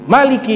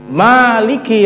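First: The first vowel is said short. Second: The first vowel is said long. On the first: Only the events within the Day of Judgment are ruled. "Bisa dibaca pendek" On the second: The whole Day of Judgment is ruled. "bisa dibaca panjang"

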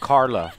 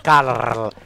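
First: The R is plain, not rolled. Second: The R is strongly rolled. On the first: The speaker calls it wrong. "It's not Carla" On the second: The speaker calls it right. "It's Carla"

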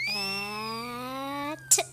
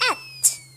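First: It is said slowly. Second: It is said fast.

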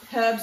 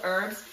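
First: It is said the Australian way. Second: It is said the American way. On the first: "Australia to America, you say it different" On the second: "Australia to America, you say it different"

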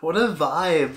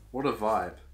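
First: It is said with lively, enthusiastic energy. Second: It is said plainly, without extra energy.

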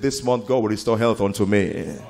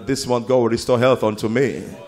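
First: It is said at a normal volume. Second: It is said at a louder volume. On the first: "Now personalize it" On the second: "Make it louder"

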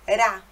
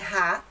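First: The r is a quick tap of the tongue. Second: The r is a throaty sound from the back. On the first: The speaker calls it right. "mas é ra" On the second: The speaker calls it wrong. "Não é ra também"

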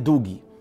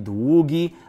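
First: The ł sound is short and weakly articulated. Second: The ł sound is lengthened and clearly articulated. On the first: The speaker calls it wrong. "a nie długi" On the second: The speaker calls it right. "powinniśmy wydłużyć, tak? Czyli długi"

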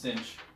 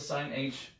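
First: It is said as one syllable, cinch. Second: It is said as two parts, sine h. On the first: "but it's really pronounced cinch" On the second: "If you want to call the sine h, feel free. I say it that way in my head"

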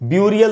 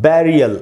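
First: The first vowel sounds like 'you'. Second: The first vowel sounds like 'eh'. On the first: The speaker calls it wrong. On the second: The speaker calls it right.

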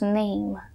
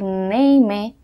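First: The word ends on the M sound. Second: An extra vowel sound follows the final M. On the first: The speaker calls it right. "decimos name. Termina el sonido de la M y no tenemos el sonido de la E al final" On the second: The speaker calls it wrong. "en vez de decir name"

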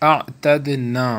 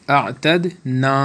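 The two takes are said the same way.

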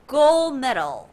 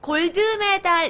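First: It is said with natural English sounds. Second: It is said with Korean-style syllables and vowels. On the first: The speaker calls it right. "gold medal이라고 발음하셔야 돼요" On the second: The speaker calls it wrong. "골드 메달 이러면 잘 이게 좀 한국 사람스러우니까"

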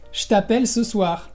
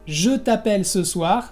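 First: The vowel in je is dropped. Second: The vowel in je is fully pronounced. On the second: "en lugar de decir"

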